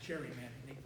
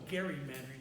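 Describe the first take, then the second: First: The word begins with a soft J sound. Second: The word begins with a hard G sound. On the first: The speaker calls it wrong. "not gerrymandering. They messed up the pronunciation" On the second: The speaker calls it right. "Mister Gary, it should actually be called gerrymandering"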